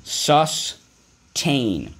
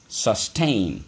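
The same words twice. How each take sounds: First: Sustain, stretched and raised for the class to repeat; model word called out. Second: Said in the usual way. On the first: Shown as a demonstration. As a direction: call out Sustain for the class to echo. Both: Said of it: "So let's go".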